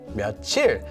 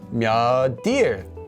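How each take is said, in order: First: The final consonant carries over as a ch sound. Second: The final consonant carries over as a d sound. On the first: The speaker calls it wrong. "put this letter through the empty consonant" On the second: The speaker calls it right. "So it would become 몇일"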